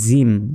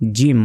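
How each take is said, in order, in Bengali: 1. ব্যঞ্জনটি হালকাভাবে ও নরমভাবে উচ্চারিত হয়। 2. ব্যঞ্জনটি ভারীভাবে ও শক্তভাবে উচ্চারিত হয়। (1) "অনেকে বলি জিম" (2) "জিম মোটাভাবে শক্তভাবে"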